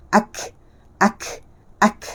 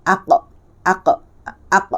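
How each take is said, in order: First: "ak" ending in a puff of air; airy kaf. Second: "ak" with a bouncing back q; qalqalah qaf. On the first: Teacher shows air, not voice, airy "ak". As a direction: let only wind out after "ak". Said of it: "yang keluar itu adalah angin". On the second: Teacher contrasts qaf with kaf, bounced "ak". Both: Shown as a demonstration.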